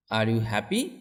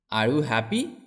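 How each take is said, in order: Both takes have the same delivery.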